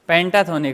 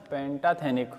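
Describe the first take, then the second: First: The third syllable has an 'o' vowel. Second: The third syllable has an 'e' vowel. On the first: "थोनिक या थेनिक कहीं भी देख लेना" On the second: "थेनिक ज़्यादा सही है"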